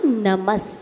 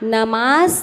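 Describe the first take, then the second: First: The vowel after the m is short. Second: The vowel after the m is long. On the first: The speaker calls it right. "नहीं नमस" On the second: The speaker calls it wrong. "नमास नहीं"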